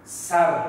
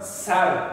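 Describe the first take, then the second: No difference in how they are said.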